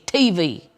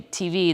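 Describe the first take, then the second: First: The stress falls on the T. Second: The stress falls on the V. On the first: "A lot of emphasis on the T" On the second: "they don't say T V"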